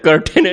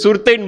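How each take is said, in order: First: The word begins with a K sound. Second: The word begins with an S sound. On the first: The speaker calls it right. "મને ખબર પડી કર્ટેન" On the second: The speaker calls it wrong. "એને સુરતૈન બોલે"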